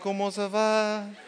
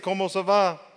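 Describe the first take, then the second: First: It is said in a smooth, suave manner. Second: It is said in a plain, ordinary manner.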